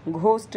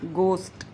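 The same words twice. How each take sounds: First: घोस्ट with a breathy aspirated gh; wrong ghost. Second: घोस्ट with a plain g, no aspiration; right way to say घोस्ट, unaspirated g; correct ghost. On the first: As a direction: say घोस्ट as Hindi घ, with a puff of air. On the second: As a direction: say घोस्ट with a clean hard g. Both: Shown as a demonstration. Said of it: "घोस्ट नहीं".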